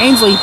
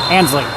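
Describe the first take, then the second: First: The first syllable has an 'ain' vowel sound. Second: The first syllable has a short 'an' vowel sound. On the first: The speaker calls it wrong. "Not Ainsley" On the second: The speaker calls it right. "I said the name right"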